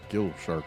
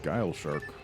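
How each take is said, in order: First: The first word rhymes with 'fill'. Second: The first word rhymes with 'mile'. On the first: This is the speaker's habitual way of saying it. "I've always just pronounced it Gill Shark" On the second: This is probably the intended name. "which I guess is supposed to be like Guile"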